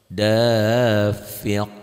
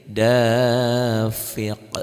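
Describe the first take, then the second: No difference in how they are said.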